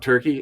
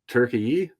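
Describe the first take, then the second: First: The word ends with a plain 'ee' sound. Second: The word ends with an added 'yeh' sound. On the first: The speaker calls it wrong. "It's not Turkey" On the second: The speaker calls it right. "It's got an e sound on the end. A ye"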